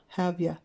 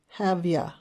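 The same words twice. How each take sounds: Both takes have the same delivery.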